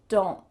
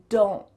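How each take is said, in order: The two takes are said the same way.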